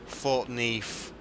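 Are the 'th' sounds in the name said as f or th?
f. The th sounds are said as f sounds. This is the local way of saying it. "it's got F's in it rather than T H's"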